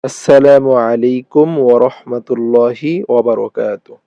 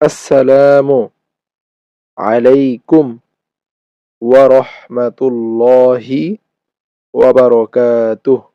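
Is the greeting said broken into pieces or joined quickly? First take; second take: joined; broken. First: It is said quickly as one joined phrase. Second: It is said slowly with breaks between pieces. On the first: "একসাথে দ্রুত" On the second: "আমি ভেঙে ভেঙে প্রথমে বলে দিচ্ছি"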